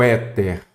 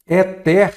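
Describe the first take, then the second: First: Said in the usual way. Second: ÉTER said as "e-TÉR", end stressed; stress shifted to last syllable. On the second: Shown as a demonstration. Teacher shows the word missing its accent, end-stressed. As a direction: read "éter" as if unaccented, hitting TER. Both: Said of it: "Éter faltou o acento".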